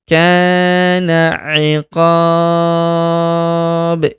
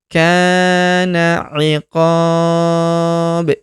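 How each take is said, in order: Both takes have the same delivery.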